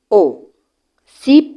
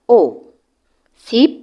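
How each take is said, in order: The two takes are said the same way.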